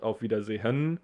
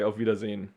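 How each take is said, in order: First: The final syllable keeps its full vowel. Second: The final syllable drops its vowel. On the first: "we say not Auf Wiedersehen" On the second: "So we just skip this E here"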